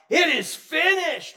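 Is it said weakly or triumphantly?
triumphantly. It is said triumphantly, as a victory cry.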